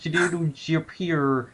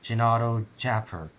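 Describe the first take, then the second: First: The name is said with different vowel sounds. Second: The name is said with its usual vowel sounds. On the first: The speaker calls it wrong. "you're pronouncing your vowels wrong" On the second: The speaker calls it right. "It's pronounced Gennaro Japper. That's the intended pronunciation"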